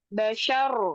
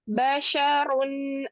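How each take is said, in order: First: The word ends on a bare r sound. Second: The word ends with an added -un sound. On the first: The reader stops on this word. "dia kalau wakof, tanwinnya hilang, diganti menjadi sukun" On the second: The reader joins this word to the next. "Contoh diwasolkan"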